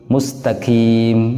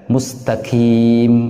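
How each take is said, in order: Both takes have the same delivery.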